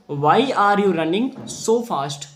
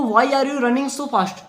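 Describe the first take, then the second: First: Very slow, word-by-word reading; slow classroom reading; slow plain reading. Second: Slow, higher, lightly voiced jackal asking; a hint of a questioning jackal; jackal's voice. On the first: Shown as a demonstration. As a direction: read the line out slowly for the class. First reading of jackal's line. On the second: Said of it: "सियार कह रहा है।".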